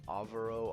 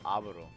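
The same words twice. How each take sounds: First: The name is said with an English-style pronunciation. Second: The name is said with a Spanish pronunciation. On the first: The speaker calls it wrong. "he can't pronounce it or something" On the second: The speaker calls it right. "he's pronouncing his name wrong, dude. It's Alvaro"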